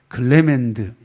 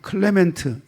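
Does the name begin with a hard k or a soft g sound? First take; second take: g; k. First: The name starts with a soft g sound. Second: The name starts with an aspirated k sound. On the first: This is probably the American way of saying the name. "이건 아마 미국 발음이 아니겠나" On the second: This is the British way of saying the name. "이건 영국 발음이고"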